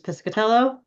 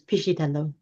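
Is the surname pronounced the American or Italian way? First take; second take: American; Italian. First: The name is said with an American pronunciation. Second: The name is said with an Italian pronunciation. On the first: "the Americanized version" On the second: "The Italian version"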